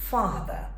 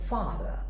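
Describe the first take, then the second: Both takes have the same delivery.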